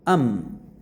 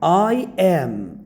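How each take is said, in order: First: The words merge into one weak unstressed syllable. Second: Both words are said in full, separately. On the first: The speaker calls it right. "So I am should be said um" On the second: The speaker calls it wrong. "it's not good to say I am"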